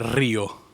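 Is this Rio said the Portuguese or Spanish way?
Spanish. It is said with a Spanish pronunciation. "in Spanish, ... mostly it will be like Rio"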